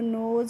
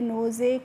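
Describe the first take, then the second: First: The word ends with no final vowel. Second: The final e is sounded as a vowel. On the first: The speaker calls it right. "कैसे पढ़ना है" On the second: The speaker calls it wrong. "इस तरीके से नहीं पढ़ना है"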